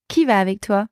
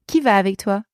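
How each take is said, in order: Both takes have the same delivery.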